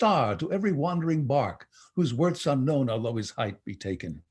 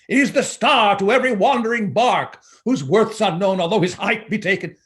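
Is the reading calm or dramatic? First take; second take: calm; dramatic. First: It is read in a calmer, less dramatic manner. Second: It is read dramatically, like a lawyer arguing.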